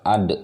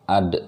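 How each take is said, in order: First: The final consonant is released with an echoing bounce. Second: The final consonant is released with an echoing bounce.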